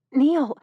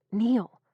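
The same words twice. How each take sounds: First: Neil! cried out high and loud; sudden loud cry of Neil!; calling out. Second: Said in the usual way. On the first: A narrator's reading. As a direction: shout Neil! across the room in alarm. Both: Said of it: "She tried to call the word".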